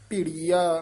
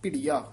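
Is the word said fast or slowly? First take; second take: slowly; fast. First: The word is said slowly and drawn out. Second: The word is said quickly and compactly. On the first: The speaker calls it wrong. "ਭਿੜੀਆ ਨਹੀਂ ਕਹਿਣਾ" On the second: The speaker calls it right. "ਭਿੜੀਆ ਛੇਤੀ ਬੋਲ ਦੇਣਾ"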